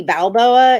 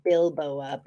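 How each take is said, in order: First: Balboa said like Rocky Balboa, BAL-boa; Rocky style Balboa. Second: Bilboa said like Bilbo, BIL-boa; like Baggins. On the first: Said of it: "Not like Rocky Balboa". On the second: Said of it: "It's more like". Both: Shown as a demonstration.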